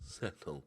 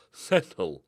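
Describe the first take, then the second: First: Soft, low self-calming word; telling himself to calm down. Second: Said in the usual way. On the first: Real, not acted. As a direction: settle yourself down. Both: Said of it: "Okay, calm down".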